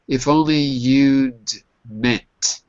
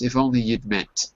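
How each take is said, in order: First: The phrase is said at a normal speed. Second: The phrase is said quickly.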